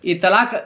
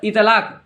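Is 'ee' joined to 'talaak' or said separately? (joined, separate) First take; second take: joined; joined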